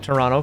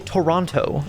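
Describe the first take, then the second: First: It is said the clipped Buffalo-Canadian way. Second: It is said with every letter pronounced.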